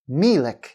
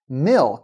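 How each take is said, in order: First: A vowel is inserted between l and k. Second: The l and k are said together. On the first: The speaker calls it wrong. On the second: The speaker calls it right.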